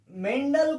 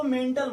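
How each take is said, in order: First: "मेंडल" with a voiced ड in the middle; correct pronunciation. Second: "मेंटल" with an unvoiced ट in the middle; wrong pronunciation. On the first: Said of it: "मेंडल को मेंटल मत पढ़ना". ("मेंडल" में बीच में ड का सही उच्चारण) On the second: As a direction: misread the name as "मेंटल", with a hard t. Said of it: "मेंटल मत पढ़ना भाई". ("मेंटल" में ड की जगह ट का ग़लत उच्चारण) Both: Shown as a demonstration.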